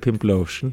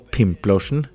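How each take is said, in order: First: The stress is on a later syllable. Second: The stress is on the first syllable.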